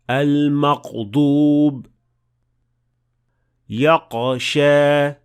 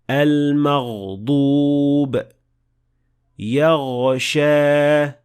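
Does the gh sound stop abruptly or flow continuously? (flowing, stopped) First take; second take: stopped; flowing. First: The gh sound stops abruptly, like a q. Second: The gh sound flows smoothly and continuously. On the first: The speaker calls it wrong. "the sound will stop, and it will sound more like a qaf rather than ghain" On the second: The speaker calls it right. "the sound of ghain should flow smoothly, and it has the ability to continue"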